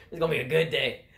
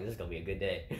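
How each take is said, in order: First: Loud, higher gleeful retelling; amused, punched-up delight. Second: Said in the usual way. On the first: Retold or imitated. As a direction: crow it between laughs. Repeats it louder between laughs.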